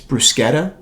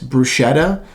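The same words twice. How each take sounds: First: It is said the authentic Italian way. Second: It is said the common Americanized way. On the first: This is the technically correct form. The speaker calls it right. "technically, it's it's bruschetta" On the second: This is how most people say it. The speaker calls it wrong. "People say it's bruschetta"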